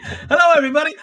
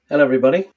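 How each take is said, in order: First: The greeting is said with more energy and excitement. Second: The greeting is said flatly with little energy. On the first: The speaker calls it right. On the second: The speaker calls it wrong.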